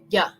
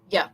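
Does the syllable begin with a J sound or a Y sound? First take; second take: Y sound; Y sound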